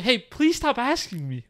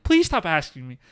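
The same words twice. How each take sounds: First: Slow, higher gentle plea; slowly and kindly ask her to stop; calm polite request. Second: Said in the usual way. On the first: Shown as a demonstration. Showing exactly how he asked her, slow and gentle. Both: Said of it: "like that".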